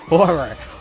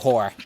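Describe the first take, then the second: First: Both R sounds are clearly pronounced, two syllables. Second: One R is dropped, sounding like one syllable. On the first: It names the monster. The speaker calls it right. "you really need to pronounce both R sounds" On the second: It sounds like a different, insulting word. The speaker calls it wrong.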